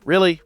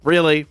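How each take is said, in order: First: Sharp rising disbelief, a bit louder; incredulous really. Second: Falling, deadpan repeat of disbelief; flat exasperated really. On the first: Reacting to a cop-out ending with exasperated disbelief. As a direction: throw the word up in exasperated disbelief. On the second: Reacting to a cop-out ending with a flat, fed-up drop. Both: Retold or imitated. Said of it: "'cause I'm just like".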